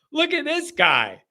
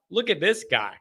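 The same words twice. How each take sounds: First: Stretched and raised like an announcer; drawn-out hype for a caller; slow, higher showman call. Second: Said in the usual way. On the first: Shown as a demonstration. Hyping up a favourite caller, slow and raised.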